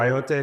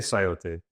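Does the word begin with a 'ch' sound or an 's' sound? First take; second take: ch; s. First: The word begins with a 'ch' sound. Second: The word begins with an 's' sound. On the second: "I've also heard it as sayote"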